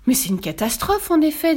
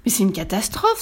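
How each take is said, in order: First: Mildly panicked, higher-pitched exclamation; flustered king, lightly voiced; panicky. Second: Mild dismayed exclamation; understated outcry from a chaplain; exclaiming. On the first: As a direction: echo the alarm in a fluster. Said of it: "tout affolé". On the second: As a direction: cry out in measured alarm. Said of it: "s'écria l'aumônier". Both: A narrator's reading.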